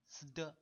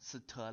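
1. 这个组合结尾像 'de' 的音。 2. 这个组合结尾像 'te' 的音。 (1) "是斯的斯的" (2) "不能发成斯特啦"

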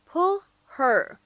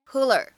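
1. 'her' 中的 h 音发得很清楚。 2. h 音被省略，两个词连在一起。

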